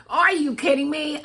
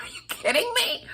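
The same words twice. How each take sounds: First: High, full-voiced disbelief; retold astonished outburst in full voice; incredulous exclamation. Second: Very high, whispery squeak; tiny breathless squeal of disbelief. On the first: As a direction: exclaim it high, out loud, in amazement. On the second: Retold or imitated. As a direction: squeak it fast, barely voiced, in shock. Retold disbelief at more gifts.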